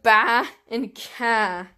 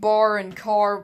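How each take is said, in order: First: The final r sounds are dropped. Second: The final r sounds are pronounced. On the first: The speaker calls it wrong. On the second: The speaker calls it right.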